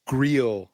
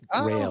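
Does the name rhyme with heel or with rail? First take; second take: heel; rail. First: The vowel rhymes with heel. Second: The vowel rhymes with rail. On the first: The speaker calls it right. "Rhymes with heel" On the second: The speaker calls it wrong. "not Grail"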